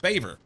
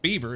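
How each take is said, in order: First: The first vowel sounds like 'bay'. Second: The first vowel sounds like 'bee'. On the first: The speaker calls it right. "it's Baver" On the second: The speaker calls it wrong. "it's not Beaver"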